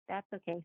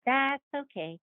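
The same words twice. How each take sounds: First: Much softer, trailing okay; the same okay said under the breath; quiet repeat. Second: Higher, brightly forced okay; smooth it over for her; a lightly voiced polite reassurance. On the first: Retold or imitated. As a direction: let it drop to almost nothing.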